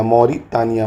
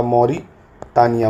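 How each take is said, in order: First: Said in the usual way. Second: Drawn-out Mauritania, every syllable slow; teacher slowly models Mauritania for the class; slow drill. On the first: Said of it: "teacher repeats the name normally". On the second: Shown as a demonstration. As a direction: stretch Mauritania out slowly for learners. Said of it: "teacher drills the country name".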